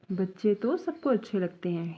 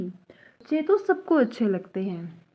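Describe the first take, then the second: First: Said in the usual way. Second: Slow, careful बच्चे तो सबको अच्छे लगते हैं; teacher reading slowly; slow first read. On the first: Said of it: "sentence repeated". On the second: Shown as a demonstration. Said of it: "sentence set, then repeated".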